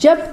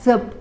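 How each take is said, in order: First: The first consonant is made at the palate. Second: The first consonant is made at the teeth. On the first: Chanting prayers. "टाळूजवळ" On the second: Be careful. "दाताजवळ"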